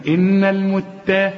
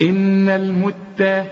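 The two takes are said the same way.

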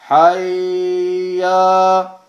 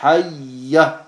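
First: The final vowel is drawn out long. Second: The final vowel is kept short. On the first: The speaker calls it wrong. "weil wenn man es in Länge ziehen will ... Das ist falsch" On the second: The speaker calls it right. "Ja ist ein Ja mit Fatha und kein Alif danach"

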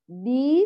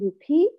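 First: The b is fully voiced with no escaping air. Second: The b is said with air escaping, breathy. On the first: The speaker calls it right. "بالإتيان بالحرف مجهورا بدون همس أبدا" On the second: The speaker calls it wrong. "يهمسها البعض فيقول بي"

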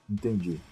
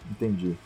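No difference in how they are said.

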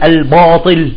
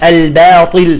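First: The b sound is heavy and full. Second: The b sound is light and thin. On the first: The speaker calls it wrong. "بعضهم يقول الباطل" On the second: The speaker calls it right. "انتبهوا على الملاحظات"

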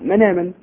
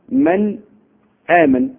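First: The glottal stop is dropped; n takes its vowel. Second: The glottal stop is pronounced after the n. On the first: This is the reading with vowel transfer. "ورش يقرأها من آمن، فينقل حركة الهمزة إلى النون الساكن" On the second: This is the reading without vowel transfer. "يعني مثلا يقول من آمن"

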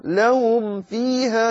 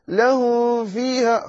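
First: The m before f is pronounced fully and clearly. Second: The m before f is hidden and nasalized. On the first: The speaker calls it right. "بدل أن يقول لهم فيها" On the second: The speaker calls it wrong. "يقول لهم فيها، خطأ"

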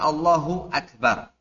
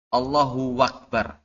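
First: Akbar starts with a glottal stop, no w. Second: A w sound links Allahu to akbar. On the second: "pakai waw"

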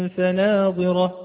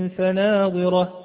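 Both takes have the same delivery.

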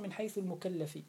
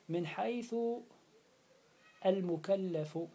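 First: The last word ends with an i vowel. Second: The last word ends with a u vowel. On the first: The speaker calls it wrong. "ولا تقول" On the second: The speaker calls it right. "بالرفع"

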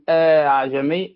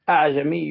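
First: The word starts with two hamza sounds. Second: The word starts with a single hamza sound. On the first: It is read as a question. "بالاستفهام على خلاف تحقيق تسهيل الهمزة الثانية مع إدخال ألف الفصل" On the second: It is read as a statement. "على الإخبار"

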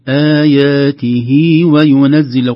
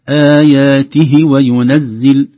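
First: The vowel after the h is lengthened. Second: The vowel after the h is kept short. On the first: The speaker calls it right. "فنقول آياته وينزل" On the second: The speaker calls it wrong. "ستكون حروف أقل لكن سيكون النطق أصعب"

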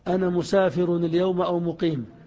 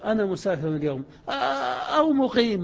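First: The last word is said plainly. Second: The last word is said with strong emphasis. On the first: The speaker might be traveling or staying. "ظهرت أو أنها إضرابية بمعنى بل؟ ما ظهرت" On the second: The speaker corrects himself: rather, he is staying. "مقيم، فتبين الإضراب. النبرة"

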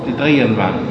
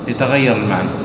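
The two takes are said the same way.

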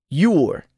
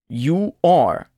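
First: The words are joined into one syllable. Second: The two words are said in full. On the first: "luego contraído con el pronombre personal" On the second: "oirá el verbo sin contracción"

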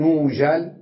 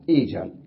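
First: The vowel before the j sounds like oo. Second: The vowel before the j sounds like ee. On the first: The word follows other speech ending in u. "ألفظها واوا" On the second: The word is said on its own. "همزة مكسورة بعدها ياء بعدها جيم ثم لام"

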